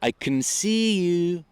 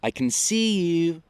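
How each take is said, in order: Both takes have the same delivery.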